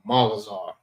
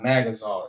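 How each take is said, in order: First: The first syllable is 'Ma' with an open ah vowel. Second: The first syllable is 'Mag' with a flat English a. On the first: The speaker calls it right. "it's Magazar, Ma" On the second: The speaker calls it wrong. "it's not Magazar"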